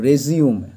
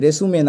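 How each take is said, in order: First: It is said like 'rizyoom', ending in 'm'. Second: It is said like 'resoomay', ending in 'ay'. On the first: The speaker calls it right. "রেজিউম উচ্চারণটা হবে" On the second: The speaker calls it wrong. "রেসুমে না"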